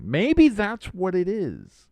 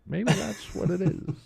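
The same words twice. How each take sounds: First: High, slow, loud Clinton drawl; slow Southern Clinton drawl; Bill Clinton impression. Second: Bill Clinton impression. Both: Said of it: "I'm doing the Bill Clinton here".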